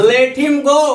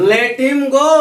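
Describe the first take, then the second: Both takes have the same delivery.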